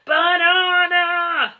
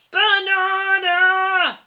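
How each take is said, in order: First: Slow, booming, high-strained roar; gorilla roar. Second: Long booming ape bellow; gorilla roar. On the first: Gorilla demanding bananas, a stretched booming roar. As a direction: bellow the word like a giant ape. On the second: Gorilla shaking the tree, bellowing slow. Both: A narrator's reading. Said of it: "roared the giant gorilla".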